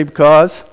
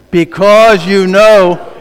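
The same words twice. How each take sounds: First: Said in the usual way. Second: Loud, slow, each word spelled out; louder congregation reading. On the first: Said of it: "that's very weak". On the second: Shown as a demonstration. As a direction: read it back with full force. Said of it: "One more time".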